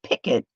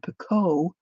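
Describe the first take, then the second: First: It is said the American way, like picket. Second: It is said the British way, like pee-koh. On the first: "picket is the American um, pronunciation" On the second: "picot is the uh, like European U K"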